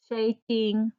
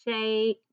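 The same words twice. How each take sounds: First: "shaking" with the same ay; long A in shaking. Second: "Shake" drawn with ay; long A in shake. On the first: Teacher comparing "shaking" with shake. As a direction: keep the ay in "shaking". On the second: Teacher comparing "Shake" with shaking. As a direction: stretch the ay in "Shake". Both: Shown as a demonstration. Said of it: "still saying A".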